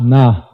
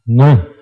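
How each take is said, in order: First: The syllable has a full 'a' vowel after n. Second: The n runs straight into a syllabic r. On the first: The speaker calls it wrong. "It's not Na" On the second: The speaker calls it right. "So it's Nr"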